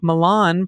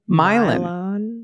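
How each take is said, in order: First: The I is not a long I sound. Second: The I is a very long I sound. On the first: It names the European city. "great European cultural centers like Milan" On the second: It names the local town. "pronounced with a very long I sound"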